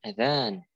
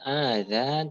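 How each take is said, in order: First: The first vowel is short, the second long. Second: The first vowel is drawn out long. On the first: The speaker calls it right. "tapi adzan; hamzahnya itu pendek dan yang panjang adalah uh, dalnya" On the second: The speaker calls it wrong. "bukan adzan; Mereka masih memanjangkan hamzah"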